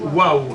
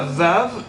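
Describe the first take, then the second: First: The word begins with a w sound. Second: The word begins with a v sound. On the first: This is how Tunisians and people from Djerba say it. "les Tunisiens disent le vav, disent waouh" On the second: This is the usual pronunciation, not the Tunisian one. "Ils disent pas vav"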